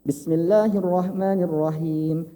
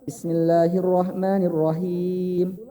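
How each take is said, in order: First: The vowel before the final m lasts two beats. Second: The vowel before the final m lasts four beats. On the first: "Kalau mau dua" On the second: "Mau empat, silahkan"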